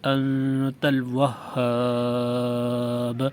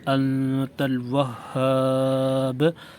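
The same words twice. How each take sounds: First: The final long vowel is held three counts. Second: The final long vowel is held two counts. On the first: "तीन गुना" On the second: "दो गुना"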